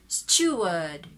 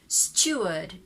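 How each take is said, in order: No difference in how they are said.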